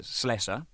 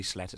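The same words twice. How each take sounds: First: Said in the usual way. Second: Slesser misspoken as "Sletter", with a t; name slip. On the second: Real, not acted. Drummer fumbling a friend's name, mispronounced as Sletter. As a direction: say Slesser with a t in place of the second s. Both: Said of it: "I didn't mean to get it wrong".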